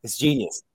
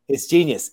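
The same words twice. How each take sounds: First: Said in the usual way. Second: "genius" leaned on a bit harder, the repeat pushed up; emphatic repeat. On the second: Shown as a demonstration. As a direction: hammer home "genius" the second time. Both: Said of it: "Fucking genius".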